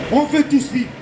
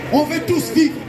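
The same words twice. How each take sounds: The two takes are said the same way.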